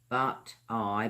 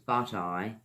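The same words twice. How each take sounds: First: The two words are said separately. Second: The two words run together as one.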